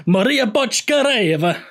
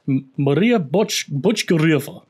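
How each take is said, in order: First: High, slow Italian-accented lilt. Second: Slow, halting stab at a Russian accent; attempted Russian accent. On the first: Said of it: "in an Italian accent". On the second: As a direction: feel out the name with a Russian accent. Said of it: "It's Russian". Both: Shown as a demonstration.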